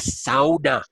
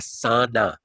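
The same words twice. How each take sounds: First: The word is pronounced the Finnish way. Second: The word is pronounced the usual English way. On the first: The speaker calls it right. "I have to pronounce it the Finnish way" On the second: The speaker calls it wrong. "not a sauna"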